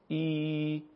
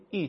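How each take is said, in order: First: ای held long, two beats; long Arabic ya. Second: ای as a brief i, one beat; short Arabic kasra. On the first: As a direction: stretch ای out as a long i. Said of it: "یای مدی به صورت". (یای مدی، ای کشیده) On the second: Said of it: "کسره به صورت ای". (کسرهٔ عربی، ای کوتاه) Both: Shown as a demonstration.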